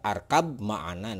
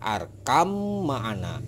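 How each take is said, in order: First: The b is pronounced before the m. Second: The b merges into a doubled m. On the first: The speaker calls it wrong. "Kalau misalkan dibaca arkab ma'ana, nah ini salah" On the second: The speaker calls it right. "Yang benar itu adalah arkam ma'ana ya, karena ini huruf ba. Jadi ba ini tidak dibaca"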